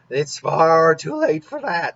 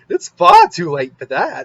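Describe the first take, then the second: First: It is said in the speaker's ordinary voice. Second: It is said in a weird, silly clown voice.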